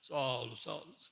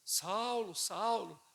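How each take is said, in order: First: It is said in a deep, otherworldly put-on voice. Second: It is said in an ordinary speaking voice.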